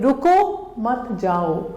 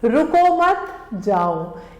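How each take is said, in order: First: The pause comes after the first word. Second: The pause comes after the second word.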